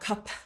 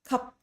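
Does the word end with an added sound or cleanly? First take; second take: added sound; clean ending. First: The final consonant has extra air or vowel. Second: The word ends cleanly on the final consonant. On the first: The speaker calls it wrong. "not cup" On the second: The speaker calls it right.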